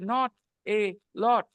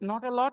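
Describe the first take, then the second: First: The words are broken apart into separate beats. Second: The words run together in one smooth rhythm. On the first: The speaker calls it wrong. "तुम उसको तोड़ के नॉट ए लॉट ऐसे कर दोगे" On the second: The speaker calls it right. "नॉट अ लॉट ही रहना चाहिए यही है सही प्रोनाउंसिएशन"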